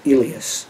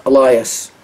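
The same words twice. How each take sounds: First: Elias said as ee-LEE-us, stress on LEE; alternate pronunciation. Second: Elias said as uh-LYE-us, stress on LYE; usual pronunciation. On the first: Showing viewers the other way to say Elias, ee-LEE-us. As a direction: Elias with long E sounds, ee-LEE-us. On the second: Naming the wrestler Elias as uh-LYE-us. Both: Shown as a demonstration. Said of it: "some people pronounce it".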